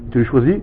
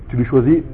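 No difference in how they are said.

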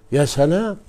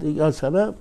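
First: يا سلام louder with rising wonder; admiring exclamation. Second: Said in the usual way. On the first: Shown as a demonstration. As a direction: marvel aloud at يا سلام. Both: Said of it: "admiring Quran wording".

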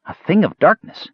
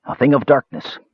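First: Awed delight. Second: A touch of grim menace, falling; ominous mage. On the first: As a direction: say it like the best news ever. Kender echoes with delight. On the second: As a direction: lay it down like a dark warning. Mage warns of evil charm. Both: A narrator's reading.

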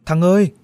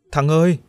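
First: Louder and higher second call, rising urgency. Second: Loud call, higher. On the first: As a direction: call again, more desperate. (gọi lớn hơn, cao giọng) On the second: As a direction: call his name across the street. (gọi to tên bạn) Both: Acted. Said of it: "cất tiếng kêu vang".

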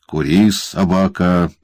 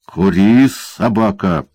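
First: Mock-gentle warning. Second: Harsh barked command; barking order. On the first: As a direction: say it sweetly to the boy. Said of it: "это мягкое предостережение". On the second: Acted. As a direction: snap it out like a command to a dog. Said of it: "рявкнул карлик".

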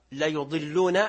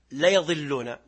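First: ليضلون as la-yuḍillūn, ending on a rise; damma on the ya. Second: ليضلون as la-yaḍillūn, ending on a fall; fatha on the ya. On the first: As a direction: demonstrate ليضلون with "yu", tune lifting at the end. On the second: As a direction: demonstrate ليضلون with "ya", tune dropping at the end. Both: Shown as a demonstration. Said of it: "من يعرف ما الفرق".

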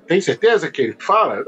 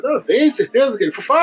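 First: Doubting host. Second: Higher, eager insisting owner; insistent owner. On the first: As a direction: ask it as a sceptical TV host. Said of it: "aí o Silvio". (apresentador desconfiado, tom mais grave) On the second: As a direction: push back fast and keen. (dono insistente, voz mais aguda) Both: Retold or imitated.

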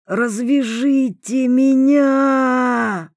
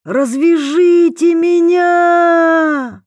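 First: Slow, high, wheezing plea; hoarse plea. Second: Very loud high drawn-out cry; desperate scream. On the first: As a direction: rasp it out, pleading. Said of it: "просипел Котовский". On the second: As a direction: scream it after the cart. Prisoner screams after cart. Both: A narrator's reading.

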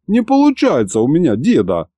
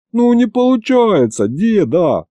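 First: Higher grumbling whine that falls at the end; grumbled complaint. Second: High, drawn-out howl of helplessness; whining wail.

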